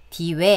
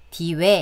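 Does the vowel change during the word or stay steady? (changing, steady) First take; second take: changing; changing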